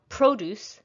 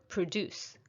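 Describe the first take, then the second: First: Produce as PRO-duce with a full O; stress on first syllable. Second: Produce as pruh-DUCE, first syllable reduced; stress on second syllable. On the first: Teacher contrasting noun with verb, produce stressed on PRO. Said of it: "So it's noun produce". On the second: Teacher contrasting verb with noun, produce stressed on DUCE. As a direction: put the weight on DUCE in produce. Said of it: "versus verb produce". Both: Shown as a demonstration.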